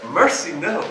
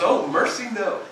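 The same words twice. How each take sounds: First: Lightly voiced pious friend, mild dismay; a hint of an old-fashioned churchgoer saying mercy, no; imitating Bob. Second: Laughing quote. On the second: Retold or imitated. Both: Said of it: "That's what he says, how he talks".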